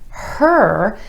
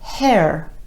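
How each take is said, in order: First: The R sound follows with no extra vowel. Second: An extra eh vowel comes before the R. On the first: The speaker calls it right. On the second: The speaker calls it wrong.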